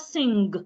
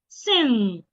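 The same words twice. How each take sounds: First: It ends in ng with a hard g. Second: It ends in ng with no hard g. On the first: The speaker calls it wrong. "it's not sing" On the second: The speaker calls it right. "G should not be heard"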